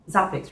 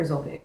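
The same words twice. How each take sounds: First: "Zopix" as ZAH-picks; first syllable of "Zopix" like ah; open A pronunciation. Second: "Zopix" as ZOH-picks; first syllable of "Zopix" rhymes with go; long O pronunciation. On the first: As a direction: say "Zopix" with an open ah, rhyming with topics. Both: Shown as a demonstration. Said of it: "Or Zopix?".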